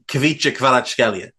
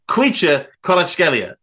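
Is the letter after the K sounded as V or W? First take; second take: V; W. First: The letter after K is sounded as V. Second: The letter after K is sounded as W. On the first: The speaker calls it wrong. "I spent ages mastering saying Kvitcha Kvaratskhelia" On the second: The speaker calls it right. "the V is a W, pronounced as a W"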